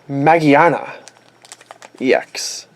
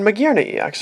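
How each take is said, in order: First: The middle sounds like 'gi-a' without 'gear'. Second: The middle sounds like the word 'gear'. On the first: "Magiana is the Japanese pronunciation for it" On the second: "based on gears and the uh, the romanization, they call it Magearna E X here"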